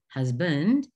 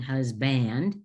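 First: The stress is on the first syllable. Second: The stress is on the second syllable. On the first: The speaker calls it right. "Instead of husband" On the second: The speaker calls it wrong. "we are saying husband, and we switched and we're going to emphasize this uh, syllable"

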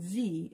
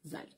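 First: The letter is said as zee, American style. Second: The letter is said as zed, Canadian style.

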